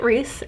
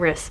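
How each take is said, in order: First: The name has a long ee vowel. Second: The name has a short i vowel. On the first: This is how many others say the name. "I know a lot of people pronounce it Reese, and that may be the correct way to pronounce it" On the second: This is the speaker's preferred way to say the name. "I like saying Riss better than Reese"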